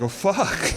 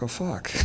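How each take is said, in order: First: Laughing curse. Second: Soft, sinking curse under the breath; quiet dismayed curse. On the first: Watching the lizard gnaw his pants, laughing curse. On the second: Alone in bed, finding his pants gone, quiet curse. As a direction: let it slip out quietly in dismay. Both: Retold or imitated.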